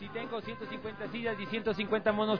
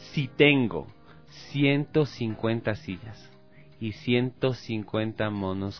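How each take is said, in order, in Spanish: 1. Se dice a velocidad normal. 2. Se dice a la velocidad más lenta.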